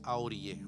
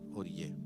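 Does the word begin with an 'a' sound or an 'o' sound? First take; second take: A sound; O sound. First: The word begins with an extra 'a' sound. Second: The word begins directly with an 'o' sound. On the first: The speaker calls it wrong. "no se dice ahorillé" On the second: The speaker calls it right. "Se dice orillé"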